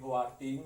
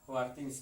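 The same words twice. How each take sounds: First: The final s of things is dropped. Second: The final s of things is clearly pronounced. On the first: The speaker calls it wrong. "S-nya ini nggak eh, dibaca ya" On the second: The speaker calls it right. "Padahal S ini juga penting ya"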